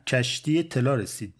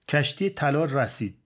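First: کشتی طلا رسید retried as "telā resid", with "e" sounds; self-corrected vowels. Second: کشتی طلا رسید with misplaced short vowels, "rasid"; botched vowel endings. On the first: Writer correcting himself on radio, Kermani "e" vowels. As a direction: say طلا رسید with kasre, "e" in both first syllables. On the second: Writer fumbling a Tehrani accent on radio, botched vowels. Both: Retold or imitated. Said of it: "نمیتونست کسره و فتحش رو درست بگه".

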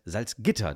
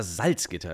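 First: Salzgitter with the stress on Gitter; corrected Salzgitter, Gitter emphasised; correct local stress. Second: Salzgitter with the stress on Salz, as everyone says it; wrongly stressed Salzgitter, first syllable Salz leaned on; common wrong stress. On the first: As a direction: put the weight of Salzgitter on Gitter, not on Salz. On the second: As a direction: say Salzgitter the way outsiders do, weight on the first part Salz. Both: Shown as a demonstration. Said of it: "Die Betonung ist auf dem Gitter".

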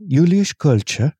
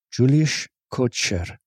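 First: Slow, careful Dutch accent. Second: Dutch accent. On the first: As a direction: try a Dutch accent on "Julius Kocher". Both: Shown as a demonstration. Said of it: "wants their name in a Dutch accent".

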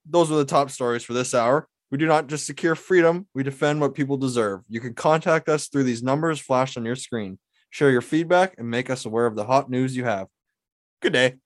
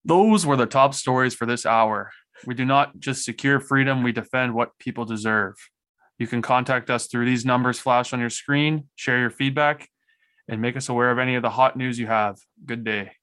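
First: Measured broadcast read; news anchor voice. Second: News anchor voice. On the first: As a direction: sign off like a TV anchor. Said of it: "News anchor edition". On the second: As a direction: read it like the evening news anchor. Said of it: "News anchor voice". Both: Shown as a demonstration.

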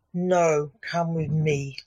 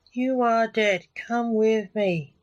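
First: Cold, flat order to his dad; a chilly command, barely any warmth. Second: Slow, higher, silly spooky voice; funny voice. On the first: Lance coldly tells his dad to come with him, cold. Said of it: "Lance said coldly". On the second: Lance orders the ghost to leave, in a silly slow voice. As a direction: ham it up like a cheesy medium. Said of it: "in a voice so funny it made Junior laugh". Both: A narrator's reading.

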